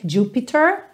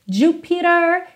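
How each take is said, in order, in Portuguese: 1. O t é um som de t claro. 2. O t é um som rápido de flap. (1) "poderia ser Jupiter, no problem" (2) "ficou com rarara nesse T"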